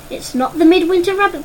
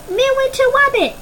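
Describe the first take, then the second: First: Said in the usual way. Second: Put-on very high toddler squeal, Wabbit said with a w; a little one shrieking Midwinter Wabbit; baby shouting. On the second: Puke wriggling free, squealing for the Midwinter Wabbit. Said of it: "Puke shouted".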